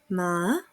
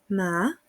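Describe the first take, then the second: First: The pitch starts low and then rises. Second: The pitch starts low and then rises.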